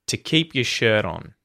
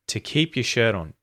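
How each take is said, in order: The two takes are said the same way.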